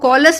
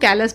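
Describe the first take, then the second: First: The first vowel sounds like 'aw'. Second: The first vowel sounds like 'ay'. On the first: "कॉलस भी बोल सकते हो" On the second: "आप इसको कैलस भी बोल सकते हो"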